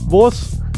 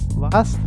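First: The vowel is an o sound. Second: The vowel is an a sound. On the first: This is the Lower Austrian dialect form. "dan vos" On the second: This is the standard form. "En vez de preguntar vas"

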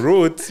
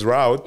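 First: It is said in a non-American pronunciation. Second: It is said in an American pronunciation. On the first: It is the form used at home. "Instead of saying route" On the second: It is the form used in the US. "you use route"

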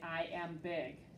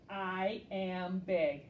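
First: It is read plainly, without excitement. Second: It is read with excitement and emphasis.

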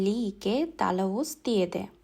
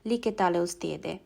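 First: The word is said in separate small parts. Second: The word is said in one smooth run.

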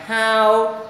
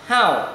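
First: The pitch stays high and level. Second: The pitch falls sharply from high to low. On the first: "đọc ngang ngang how" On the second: "Thanh 4 đọc nhấn mạnh là how"

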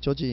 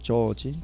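First: The name is said quickly with short sounds. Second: The name is drawn out with lengthened sounds. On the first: The speaker calls it wrong. "짧게 발음 이상해요" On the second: The speaker calls it right. "조금 길게 발음해야 돼요"

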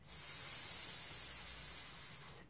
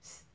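First: The S sound is held long with lots of air. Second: The S sound is cut short with little air. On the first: The speaker calls it right. "Sometimes we practice it like this" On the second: The speaker calls it wrong. "not a short sound like S"

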